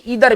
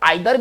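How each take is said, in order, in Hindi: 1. यह शब्द 'ee' ध्वनि से शुरू होता है। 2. यह शब्द 'eye' ध्वनि से शुरू होता है। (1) "और हम इसे इधर भी कहते हैं" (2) "इसके दो उच्चारण है, हम इसे आइदर भी कहते हैं"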